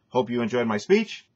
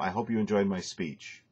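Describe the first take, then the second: First: The pitch rises at the end of the sentence. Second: The pitch falls at the end of the sentence. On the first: The speaker calls it wrong. "don't change uh, to an upward pitch for the ending of a sentence" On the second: The speaker calls it right. "end down when you finish a phrase"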